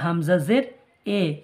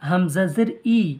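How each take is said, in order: First: The final vowel is an eh sound. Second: The final vowel is a clear ee sound. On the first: The speaker calls it wrong. "এ হচ্ছে মঝুল" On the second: The speaker calls it right. "ই হচ্ছে মারুফ"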